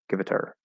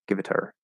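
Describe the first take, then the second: No difference in how they are said.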